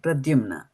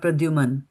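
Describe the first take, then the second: First: The name ends with the sounds 'mna'. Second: The name ends with the sounds 'man'. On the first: The speaker calls it right. "That's the name, Pradyumna" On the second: The speaker calls it wrong. "and not Pradyuman"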